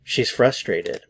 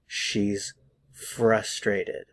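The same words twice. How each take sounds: First: Said in the usual way. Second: "She's ... frustrated", slow with a pause between the words. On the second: Shown as a demonstration. Teacher models "She's frustrated" for learners, slow and word by word. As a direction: stretch "She's", pause, then "frustrated" slowly. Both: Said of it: "pay attention".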